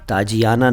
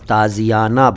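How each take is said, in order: First: The middle consonant is a j sound. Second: The middle consonant is a z sound. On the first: The speaker calls it wrong. "ताजियाना नहीं बोला" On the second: The speaker calls it right. "ताज़ियाना बोला था"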